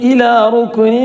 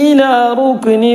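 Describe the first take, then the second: No difference in how they are said.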